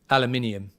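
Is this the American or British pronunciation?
British. It has five syllables, with an extra 'ee' sound. The speaker calls it right. "I would say it aluminium"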